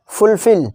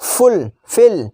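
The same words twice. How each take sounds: First: Said in the usual way. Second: "fulfil" pulled far apart as फुल, फिल; long pause inside "fulfil", after फुल; split into two words. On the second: Shown as a demonstration. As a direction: say "fulfil" as full, then fill. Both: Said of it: "दोनों का एल हट गायब".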